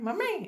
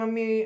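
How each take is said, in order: First: It is said in a mimicked foreign accent. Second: It is said in a native Gujarati accent. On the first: "mimicry કરવામાં ... mummy એવું બોલે" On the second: "આમ બોલવાની જગ્યાએ"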